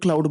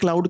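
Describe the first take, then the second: First: The vowel sounds like the one in 'cloud'. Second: The vowel sounds like the one in 'cloud'.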